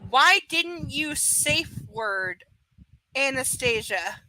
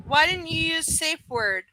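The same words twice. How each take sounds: First: Very slow, word-by-word "Why didn't you safe word"; deliberate, stilted reading; mocking as written. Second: Said in the usual way. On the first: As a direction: read "Why didn't you safe word" haltingly, spotlighting the bad wording. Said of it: "That is how it's written".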